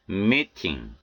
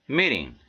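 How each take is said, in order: First: 'meeting' with a clear hard T; unflapped T. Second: 'meeting' with T as an R-like tap; American flapped T. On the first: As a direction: release the T in 'meeting' fully. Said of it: "이렇게 발음해 틀린 것은 아니". ('meeting'의 T를 또렷한 ㅌ로) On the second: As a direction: flap the T in 'meeting'. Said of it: "연음 현상이 들어가서 이렇게". ('meeting'의 T를 ㄹ처럼) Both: Shown as a demonstration.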